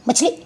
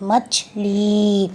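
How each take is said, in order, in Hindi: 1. अंतिम स्वर छोटा और जल्दी बोला गया है। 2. अंतिम स्वर खींचकर लंबा बोला गया है। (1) "मछली मछली ऐसे नहीं बोलेंगे" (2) "इसमें समय ज़्यादा लगा।"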